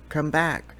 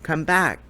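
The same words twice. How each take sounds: First: Softer repeated call. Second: Higher, louder call after fleeing mice. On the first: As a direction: call again, gentler and coaxing. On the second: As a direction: call them back across the grass. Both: A narrator's reading. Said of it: "he called to the mice".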